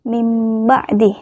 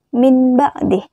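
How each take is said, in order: First: An m sound comes before the b. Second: An n sound comes before the b. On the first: The speaker calls it right. "menggantikan suara nun mati ... menjadi suara mim" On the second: The speaker calls it wrong. "tidak dibaca min ba'di"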